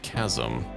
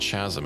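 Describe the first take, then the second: First: The word begins with a k sound. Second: The word begins with a ch sound. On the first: The speaker calls it right. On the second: The speaker calls it wrong.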